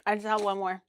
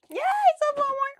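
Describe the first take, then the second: First: Said in the usual way. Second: Much higher, bright squeal on one more; gleeful squeal over the last mango; squealing yay. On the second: Real, not acted. Repeated with a cheerful yay.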